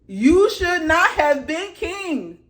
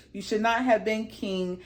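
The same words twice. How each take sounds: First: "You should not have been king" high, loud and slow; "king" drawn out in a loud, high scolding; emphatic verdict. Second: Said in the usual way. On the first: Real, not acted.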